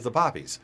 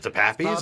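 First: The first vowel sounds like the vowel in top. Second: The first vowel sounds like the vowel in cap. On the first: "people can fight about how to pronounce the fucking things" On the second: "people can fight about how to pronounce the fucking things"

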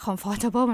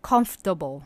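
First: The word is said with four syllables. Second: The word is said with three syllables. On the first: The speaker calls it wrong. "มันไม่ใช่" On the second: The speaker calls it right. "มีแค่3 พยางค์"

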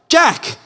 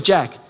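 First: The name is said with more force and passion. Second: The name is said plainly, without extra force.

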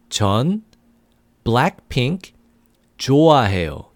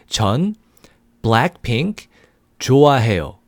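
Both takes have the same delivery.

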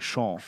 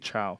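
First: It does not sound like English chow. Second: It sounds like the English word chow. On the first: The speaker calls it right. "You say Chão" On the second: The speaker calls it wrong. "You don't say chow"

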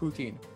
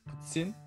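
First: The t is a plain t sound. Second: The t is said as a ts sound. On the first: The speaker calls it wrong. "You might pronounce it poutine" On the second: The speaker calls it right. "just make the ts sound"

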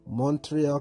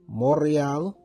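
First: Montreal is pronounced the plain English way. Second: Montreal is pronounced the French way. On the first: The speaker calls it wrong. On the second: The speaker calls it right.

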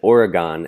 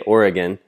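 First: Pronounced the way non-locals say it. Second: Pronounced the way locals say it. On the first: The speaker calls it wrong. "I always said Oregon" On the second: The speaker calls it right. "they say Oregon"

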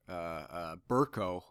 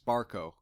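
First: The first syllable sounds like 'bur'. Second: The first syllable sounds like 'bar'. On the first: The speaker calls it right. "that's his real name" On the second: The speaker calls it wrong. "I was mispronouncing it as Barco"

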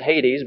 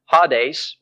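First: Hades is said with a familiar English pronunciation. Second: Hades is said with a Greek pronunciation. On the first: "we'll pronounce it Hades because I think that's how we're used to pronouncing it" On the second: "In the Greek, it's pronounced"

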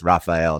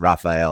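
First: The name has an American English pronunciation. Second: The name has an American English pronunciation.

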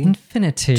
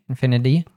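First: It is said in a British accent. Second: It is said in an American accent. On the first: "British English, we would probably say the T here" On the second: "we have an American T there and an infinity"

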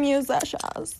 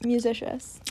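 First: It is said in an imitation of another voice. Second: It is said in the speaker's normal voice. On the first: The speaker calls it right. "the way that he says it" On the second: The speaker calls it wrong.

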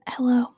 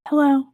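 First: The greeting sounds gloomy and melancholy. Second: The greeting does not sound melancholy. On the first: The speaker calls it right. "That's better. Yeah, I felt more in character" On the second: The speaker calls it wrong. "I can't sound melancholy"

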